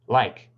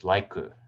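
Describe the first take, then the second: First: The word ends cleanly on the consonant. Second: An extra vowel is added after the consonant. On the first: The speaker calls it right. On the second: The speaker calls it wrong.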